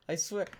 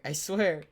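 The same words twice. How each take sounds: First: Said in the usual way. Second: Laughing. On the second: Real, not acted. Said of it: "that was an accident".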